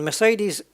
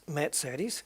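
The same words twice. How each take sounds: First: Mercedes as mer-SAY-deez; usual English way. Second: Mercedes as mairt-SAY-des, with ts; German way. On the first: Gamer naming the car the English way, Mercedes as mer-SAY-deez. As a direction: say Mercedes without any t sound. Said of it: "We always say Mercedes wrong". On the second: Gamer showing the home-country way, Mercedes with ts. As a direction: say Mercedes with a ts in the middle. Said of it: "pronounced in the country". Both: Shown as a demonstration.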